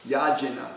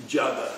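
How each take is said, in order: First: "yajana" read straight off the Roman letters; "yajana" as a reader would guess it from the spelling; read as spelled. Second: "Jaga" said with no N, as the teacher did; "Jaga" demonstrated as the teacher's pronunciation; Prabhupada's pronunciation. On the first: Shown as a demonstration. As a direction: sound out "yajana" with the J and N both heard. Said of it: "when I look at it in Roman letters". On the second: Retold or imitated. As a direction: say "Jaga" in two syllables, opening on a J sound. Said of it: "but Prabhupada would say".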